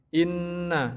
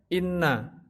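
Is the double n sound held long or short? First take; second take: long; short. First: The double n sound is held long. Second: The double n sound is said short. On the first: The speaker calls it right. "tapi ditahan agak lama" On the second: The speaker calls it wrong. "tidak boleh dibaca inna"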